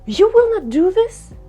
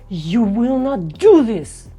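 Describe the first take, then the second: First: It sounds surprised. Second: It sounds angry. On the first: "Or you can have a surprise" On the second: "Or the anger"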